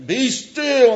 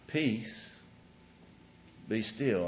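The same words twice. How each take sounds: First: Dramatic shouted command. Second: Quiet, unhurried, simply spoken; calm spoken command. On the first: The wrong way Jesus calmed the storm, bellowed at the waves. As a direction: bellow it high and loud, arms flung wide. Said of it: "raising his voice or waving his arms". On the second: The right way Jesus calmed the storm, calmly spoken. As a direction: say it with calm authority, no shouting. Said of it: "He stood up and he spoke". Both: Shown as a demonstration.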